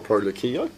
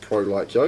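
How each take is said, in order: First: The name is said as one word, 'Lakio'. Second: The name is split into 'like' and 'Yo'. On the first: "I like Pro Lakio" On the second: "it did sound a lot better"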